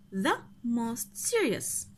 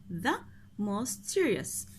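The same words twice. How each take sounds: First: Slow model answer. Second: Said in the usual way. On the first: Shown as a demonstration.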